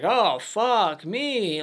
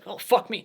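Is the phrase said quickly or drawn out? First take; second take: drawn out; quickly. First: The phrase is said slowly and dragged out. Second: The phrase is said quickly and sharply. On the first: The speaker calls it wrong. "he kind of like dragged it out" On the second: The speaker calls it right. "saying it like quick"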